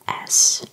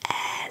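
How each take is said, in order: First: The vowel sound is less pronounced. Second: The vowel sound is more pronounced. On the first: "in English it would be S" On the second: "the E sound would be a bit more pronounced"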